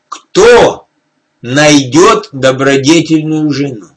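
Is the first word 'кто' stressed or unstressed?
stressed. The word кто carries strong stress.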